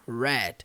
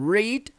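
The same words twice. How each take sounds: First: It is said with the past-tense pronunciation. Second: It is said with the present-tense pronunciation. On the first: The reading already happened. "no passado se torna read" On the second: The reading happens now. "no presente nós falamos read"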